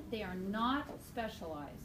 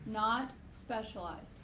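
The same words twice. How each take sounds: First: Said in the usual way. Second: "Not specialized" slowly, word by word; slow emphatic repeat. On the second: Shown as a demonstration. Teacher repeating a key point to students, "Not specialized" slowly.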